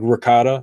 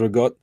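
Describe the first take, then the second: First: It is said with the final vowel. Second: It is said with the final vowel dropped.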